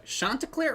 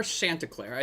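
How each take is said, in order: First: "Chanticleer" with an open "ah", like SHON-tuh-clair; broad "ah" pronunciation. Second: "Chanticleer" with the flat a of "shanty"; short "a" pronunciation. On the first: Co-host unsure of a character's name, broad "ah" pronunciation. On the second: Co-host offers the name's other version, short "a" pronunciation. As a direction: say "Chanticleer" as SHAN-tuh-clair. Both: Shown as a demonstration. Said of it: "they say it both ways".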